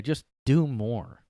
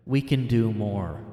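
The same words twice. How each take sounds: First: Slow, sarcastic "Just do more"; mocking slow delivery. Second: Said in the usual way. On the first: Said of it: "one of those phrases everybody says now". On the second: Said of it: "They said".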